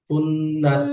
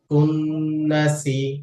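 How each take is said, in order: First: The word ends on the consonant s. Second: The word ends with a final vowel sound. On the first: The reader stops on this word. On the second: The reading continues without stopping.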